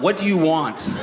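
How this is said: It sounds defeated and resigned, like giving up.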